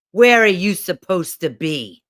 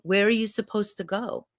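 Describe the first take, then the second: First: Loud, stern demand; loud, bossy challenge from above; yelling inner critic. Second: Put-on gentle question to a small child; tender, caring guardian's question; kneeling protector. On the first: Acted. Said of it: "this voice yelling at me". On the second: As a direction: ask it kindly, without the earlier bark. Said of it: "I picture her kneeling down to me".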